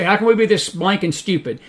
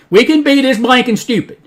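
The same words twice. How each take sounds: First: Said in the usual way. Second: High, loud exasperated answer; emphatic retort. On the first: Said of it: "and you say". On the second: Real, not acted. Preacher answering listeners' question, loud and emphatic. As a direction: fire the answer back, raised voice.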